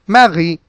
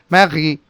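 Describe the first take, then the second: The two takes are said the same way.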